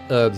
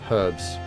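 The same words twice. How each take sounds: First: The word begins with a vowel and no h. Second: The word begins with an audible h sound. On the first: "They're more likely to say herbs" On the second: "instead of herbs"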